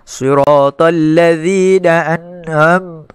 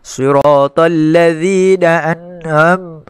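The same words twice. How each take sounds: First: It is read with the nose pinched shut. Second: It is read with the nose pinched shut.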